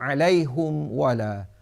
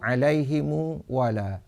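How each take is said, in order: First: The h has a u vowel; m has none. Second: The h has an i vowel; m adds u. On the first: "dhammah ha dan iskan mim jamak" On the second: "kasrah ha dan silah mim jamak dengan waw"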